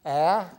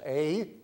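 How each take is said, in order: First: A pronounced as in "cat"; different vowel, ae. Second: A pronounced "ay" as in "day"; different vowel, ay. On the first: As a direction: say A louder, open as in "apple". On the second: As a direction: say A as the letter's name. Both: Shown as a demonstration. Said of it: "It's two different vowels".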